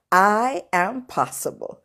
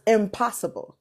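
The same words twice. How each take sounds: First: "I am possible" said slowly, each word set apart; split into words. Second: Said in the usual way. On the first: Shown as a demonstration. Speaker rereads impossible with a space in it, slow and separated. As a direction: draw out "I", then "am", then "possible". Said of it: "What it does say now is". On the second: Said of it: "it no longer says impossible".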